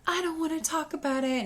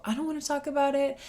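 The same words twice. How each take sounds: First: Higher imitated child, sulking; sulky little kid voice, imitated. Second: Higher and quicker imitated child, stubborn; quick sulky little kid voice, imitated. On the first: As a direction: mimic a moping little boy. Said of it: "And then it's".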